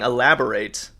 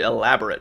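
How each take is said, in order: First: It is pronounced as the verb form. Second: It is pronounced as the adjective form. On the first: To explain further. The speaker calls it wrong. "I kept saying elaborate, um, which is you know to to explain further" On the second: Ornate. The speaker calls it right. "but it was actually elaborate"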